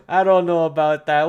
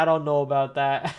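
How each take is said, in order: First: Louder, laughing "I don't know about that"; amused skeptical. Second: Said in the usual way. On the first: Real, not acted. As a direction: scoff at the rumor with a grin.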